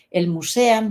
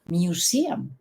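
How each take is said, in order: First: "museum" said as mu-se-am; mispronounced museum. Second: "museum" said as miu-SI-am; corrected pronunciation. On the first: Retold or imitated. Imitating a museum guide who spoke good English, mispronounced museum. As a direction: say "museum" with Spanish vowels, mu-se-am. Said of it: "la señora hablaba bien inglés". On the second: Shown as a demonstration. Teacher correcting the museum guide, corrected pronunciation. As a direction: open "museum" with miu, then stressed si. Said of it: "hay una diferencia entre decir".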